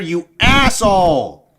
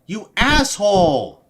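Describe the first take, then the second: First: Livid yell of "asshole" said as "assole", the H dropped; furious shout. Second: Livid yell of "asshole" with the H sounded, "ass-hole"; furious shout. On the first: Streamer raging at the cop, the H missing from "asshole". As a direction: scream "asshole" so angry the H slips away, "ass-ole". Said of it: "I'm so mad I actually forgot to add the H in asshole". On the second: Streamer raging at the cop, "asshole" with its H. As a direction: scream "asshole" again, the H now in. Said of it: "forgot to add the H in asshole". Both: Real, not acted.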